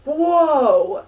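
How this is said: It sounds excited and energetic.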